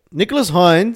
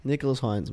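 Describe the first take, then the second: First: Higher and louder, rising hype; excited call. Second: Said in the usual way. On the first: Real, not acted. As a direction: call his name out like a fan. Name repeated, then hyped.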